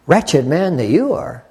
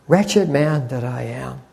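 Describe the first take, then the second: First: Slow delivery with the weight on "you"; retold puzzled objection. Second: Slow, softer imitation of a tearful confession; retold tearful confession. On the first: Young trainee privately doubting old brother's confession, stress on "you". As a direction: lean on "you" in a mildly disbelieving retort. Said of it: "I remember thinking, as a twenty-three-year-old". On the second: Preacher retelling old brother's testimony, understated tearful confession. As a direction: quietly mimic a grieving old brother, drawn out. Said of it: "he's crying, and he's saying".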